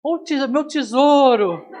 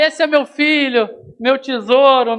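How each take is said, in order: First: Lightly voiced Kiko's mom, higher, slow and laughing; a hint of a fussy doting mother, drawn out; teasing mock of a mother gushing over her darling; doting mother impression. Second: Doting mother impression. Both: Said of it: "aparece a mãe do Kiko".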